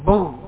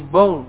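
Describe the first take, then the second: First: The r is replaced by a guttural gh sound. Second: The same.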